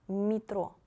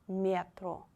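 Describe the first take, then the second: Both takes have the same delivery.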